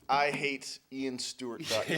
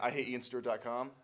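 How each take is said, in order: First: It is said slowly. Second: It is said at normal speed.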